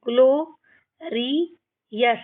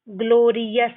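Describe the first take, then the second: First: ग्लोरियस split into ग्लो, रि, यस; syllable by syllable. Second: Said in the usual way. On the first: Shown as a demonstration. Teacher shows learners how to read, ग्लोरियस in separate syllables. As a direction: pause between the parts of ग्लोरियस. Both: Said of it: "इस तरीके से हमको इनको पढ़ना है".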